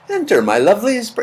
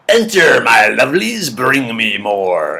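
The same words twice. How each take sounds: First: High-pitched attempt at a sweet voice; badly faked sweet creature voice; sweet, kind belly. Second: Russian witch luring in her food; hungry belly impression. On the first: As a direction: coo it higher, trying to sound kind. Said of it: "yours probably has a sweet, kind voice". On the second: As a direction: voice a belly greedily summoning bacon. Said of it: "My impression of my belly seeing bacon".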